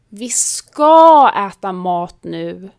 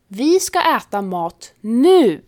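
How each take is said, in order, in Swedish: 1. Betoningen ligger på ordet ska. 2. Betoningen ligger på ordet nu. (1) "betyder ja, sluta tjata, vi ska äta" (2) "betyder vi ska äta exakt nu, inte snart eller sen"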